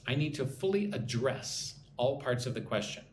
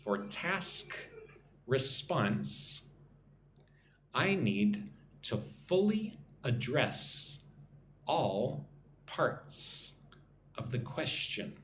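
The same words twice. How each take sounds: First: Said in the usual way. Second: Slow repeat-after-me phrasing with clear S sounds; nice and slow. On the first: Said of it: "if it's a verb". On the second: Shown as a demonstration. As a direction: pause between chunks so learners can repeat. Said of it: "nice and slow".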